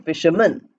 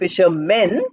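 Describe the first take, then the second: First: The final syllable is weak and reduced. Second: The final syllable is full and stressed. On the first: The speaker calls it right. "Man is not given much stress" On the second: The speaker calls it wrong. "we are not saying fishermen"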